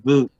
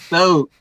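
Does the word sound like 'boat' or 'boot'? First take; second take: boot; boat. First: The vowel sounds like the one in 'boot'. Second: The vowel sounds like the one in 'boat'. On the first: The speaker calls it wrong. "he kept saying boot" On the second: The speaker calls it right. "no, boat"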